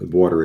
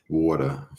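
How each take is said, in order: First: Said in the usual way. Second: "Water" in a New York accent. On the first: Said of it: "say it with that New York accent". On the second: Shown as a demonstration. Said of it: "with that New York accent".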